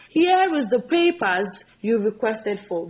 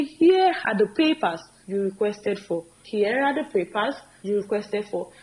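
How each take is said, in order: First: Slow, careful wrong sentence; slow demo of a mistake; slow wrong example. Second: Slow, deliberate model line; slow corrected demo; slow corrected form. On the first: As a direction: lay out the error slowly. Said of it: "Very wrong". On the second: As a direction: say the fix slowly for the class. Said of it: "So we say". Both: Shown as a demonstration.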